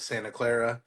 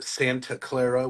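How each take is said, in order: First: The T sound is dropped. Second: The T sound is clearly pronounced. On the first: This is how locals say it. "We call it ... we don't pronounce our T's" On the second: This is how outsiders say it. "We don't call it"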